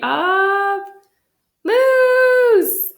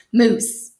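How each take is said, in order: First: High, loud, drawn-out title call; announcing title. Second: Breathy whispered title. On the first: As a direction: proclaim the title to the audience. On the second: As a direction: hush it like a secret. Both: Acted.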